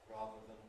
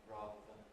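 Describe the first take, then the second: Both takes have the same delivery.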